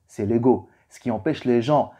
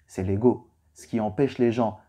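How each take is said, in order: Both takes have the same delivery.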